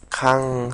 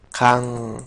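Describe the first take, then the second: First: "kan" again with final ng, in the usual teaching voice; Korean syllable repeated. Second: "kan" said with a final ng, like kang; Korean syllable demo. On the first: Teacher to students, repeating the syllable "kan" with final ng. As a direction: repeat "kan" ending in ng, then carry on explaining. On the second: Teacher to students, sounding out the syllable "kan" slowly. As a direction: sound out "kan" ending in ng, a little louder. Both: Shown as a demonstration. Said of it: "kan se va a pronunciar".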